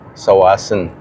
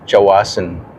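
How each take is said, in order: First: The name begins with an s sound. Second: The name begins with a ch sound. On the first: "Sawasan palang bigkas" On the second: "doon sa Chawasan"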